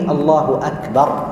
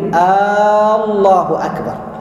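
First: The opening vowel is short. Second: The opening vowel is lengthened. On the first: It is a statement. The speaker calls it right. "لا بد من قوله الله أكبر" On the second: It becomes a question. The speaker calls it wrong. "كأن يمد الهمزة الأولى فيقول الله أكبر، هذا يصبح استفهاما"

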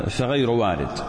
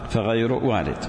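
Both takes have the same delivery.

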